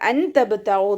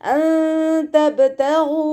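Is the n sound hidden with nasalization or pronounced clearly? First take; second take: clear; hidden. First: The n sound is pronounced clearly. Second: The n sound is hidden with nasalization. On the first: The speaker calls it wrong. "നോതരുത്" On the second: The speaker calls it right. "മറച്ചു വെച്ചിട്ട് മണിച്ചോതി കൊടുക്കുക"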